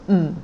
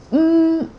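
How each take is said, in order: First: Tone six hum. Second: "mm" hummed high and level; sung, hold "mm" on a high, steady note; tone one hum. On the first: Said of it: "mm, is tone six". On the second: Teacher humming tone one for learners, high "mm". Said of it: "mm, li is tone one". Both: Shown as a demonstration.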